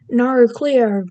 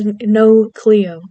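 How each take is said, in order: First: It is said in an imitated Australian accent. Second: It is said in the speaker's ordinary accent.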